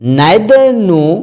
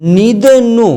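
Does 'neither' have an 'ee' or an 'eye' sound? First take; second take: eye; ee. First: The first vowel of 'neither' sounds like 'eye'. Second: The first vowel of 'neither' sounds like 'ee'. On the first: "नाइदर नो बोलें या फिर नीदर नो बोलें" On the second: "आप दोनों तरह से pronounce कर सकते हैं"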